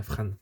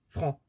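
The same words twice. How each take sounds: First: "Fran" said with a clear open "a" and a sounded "n", not nasal; preferred pronunciation. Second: "Fran" said the French way, with a nasal vowel like "franc"; "Fran" with a nasal ending; nasal French reading. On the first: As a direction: say "Fran" to rhyme with English "Ann". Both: Shown as a demonstration. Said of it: "je préfère le dire comme ça".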